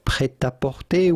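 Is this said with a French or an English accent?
French. It is said with a French accent. "would be the typical French pronunciation"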